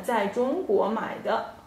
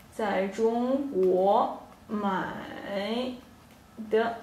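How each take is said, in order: First: Said in the usual way. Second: Slow model sentence. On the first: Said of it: "teacher models the sentence". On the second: Shown as a demonstration. Teacher repeats it slowly for her students to copy. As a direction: slowly spell out 在中国买的 for learners. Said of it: "teacher repeats it slowly".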